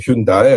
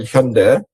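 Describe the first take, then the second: First: The name is pronounced in a non-Korean manner. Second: The name is pronounced in the Korean manner.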